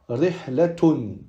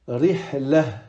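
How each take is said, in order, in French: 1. La dernière lettre se prononce t, avec -un. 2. La dernière lettre se prononce comme un h doux. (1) "on va prononcer le ta marbuta comme un t" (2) "on va le prononcer comme un ha"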